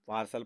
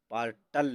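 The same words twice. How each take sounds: First: पार्सल with an S, ending "-sal"; correct pronunciation. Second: पार्टल with a hard T, ending "-tal"; mispronounced ending. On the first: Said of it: "पार्सल पढ़ेंगे". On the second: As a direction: say the wrong पार्टल, "paar-tal". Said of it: "पार्टल नहीं पढ़ेंगे". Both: Shown as a demonstration.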